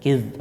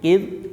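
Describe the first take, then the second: First: The final consonant is released, buzzing like z. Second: The final consonant is held and stopped short. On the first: The speaker calls it wrong. "jangan dilepas kayak Z" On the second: The speaker calls it right. "dijepit aja"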